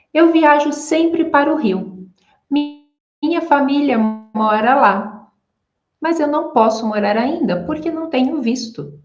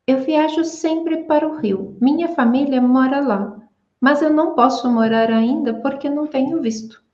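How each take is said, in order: First: Fast, flowing native Brazilian Portuguese; natural Brazilian rhythm. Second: Choppy non-Brazilian rhythm, rushing later lines; unnatural rhythm. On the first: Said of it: "vamos a verme hablar con naturalidad, como brasileña". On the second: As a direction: read it in a stiff foreign rhythm. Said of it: "este no es el ritmo del portugués". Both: Shown as a demonstration.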